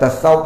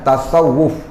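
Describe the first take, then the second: First: The w sound is single and short. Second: The w sound is doubled and held longer. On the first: The speaker calls it wrong. "Kita Melayu ni senang sebut tasawuf" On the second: The speaker calls it right.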